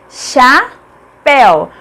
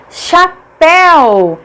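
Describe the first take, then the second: First: "Chapéu" split cha... péu; very slow, detached "Chapéu"; syllable by syllable. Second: "chapéu" announced with a long, strong péu; emphatic "chapéu", drawn out at the end; stressed last syllable. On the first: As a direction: pause clearly between the syllables of "Chapéu". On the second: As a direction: stretch the final syllable of "chapéu". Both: Shown as a demonstration. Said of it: "Pel é a última sílaba".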